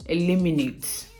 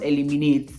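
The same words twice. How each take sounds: First: "eliminate" as "ih-LIM-ih-nate", stressed on LIM; "eliminate" stressed clearly on the second syllable; corrected pronunciation. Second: "eliminate" with full, even vowels, "eh-lee-mee-nate"; heavy "ee" sounds in "eliminate"; wrong pronunciation. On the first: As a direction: model "eliminate" with short, light middle vowels. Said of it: "it's eliminate". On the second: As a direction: say "eliminate" the mistaken way, no reduced syllables. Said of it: "Like I said earlier, it's not". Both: Shown as a demonstration.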